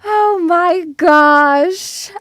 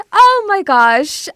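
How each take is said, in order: First: Slow, stretched oh my gosh; drawn-out excited gasp. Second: Shorter, brighter oh my gosh; quicker excited oh my gosh. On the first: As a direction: savour it, slowly and excitedly. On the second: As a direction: toss it off quickly, still thrilled. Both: Real, not acted. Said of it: "look how excited I am".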